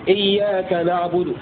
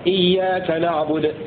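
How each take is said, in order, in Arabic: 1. الحرف الأخير معه حركة خفيفة وقصيرة. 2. الحرف الأخير يُنطق ساكنًا بلا أي حركة. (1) "أو الروم" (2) "ففيها الإسكان المحض هكذا"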